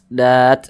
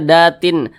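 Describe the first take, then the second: First: The word ends abruptly on a stopped t. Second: The word ends with an added -in sound. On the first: The speaker calls it right. "Ini kan kita baca dat" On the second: The speaker calls it wrong. "jangan dibaca datin"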